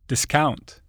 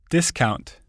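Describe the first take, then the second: First: The stress is on the second syllable. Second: The stress is on the first syllable. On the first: It is used as a verb. "the corresponding verb is stressed on the stem" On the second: It is used as a noun. "Many nouns and adjectives are stressed on the prefix"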